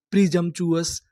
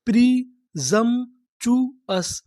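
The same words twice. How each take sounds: First: Said in the usual way. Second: "प्रिजम्पचुअस" very slowly, broken into separate chunks; syllable by syllable. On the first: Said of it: "पूरी meaning क्या बनी". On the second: Shown as a demonstration. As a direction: sound out "प्रिजम्पचुअस" piece by piece with gaps. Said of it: "तोड़-तोड़ के पढ़ते हैं". ("प्रिजम्पचुअस" को टुकड़ों में तोड़कर, बहुत धीरे पढ़ें)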